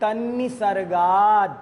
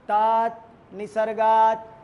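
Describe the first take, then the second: First: The sounds are joined into one unbroken word. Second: The word is split into two separate parts. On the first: The speaker calls it right. "उच्चारण भी बीच में मत तोड़ो" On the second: The speaker calls it wrong. "अगर आपने ऐसे बोला तात निसर्गात, फिर वो उच्चारण सही नहीं है"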